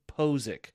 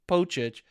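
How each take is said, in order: First: The middle consonant is a 'z' sound. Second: The middle consonant is a 'ch' sound. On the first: The speaker calls it right. "It's actually, for phonetic spelling, is P-O-H-Z-I-K" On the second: The speaker calls it wrong. "which a lot of people pronounce it Pochich"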